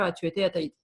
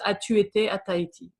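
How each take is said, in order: First: It is said at a faster pace. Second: It is said at a slower, careful pace.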